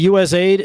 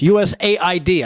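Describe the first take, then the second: First: The ending is said as the single word aid. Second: The ending is spelled out as separate letters. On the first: It suggests helping people. The speaker calls it wrong. "it makes it sound like, oh, that's it's you know people that you're trying to help people" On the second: It is an acronym, not help for people. The speaker calls it right. "I should say it like that"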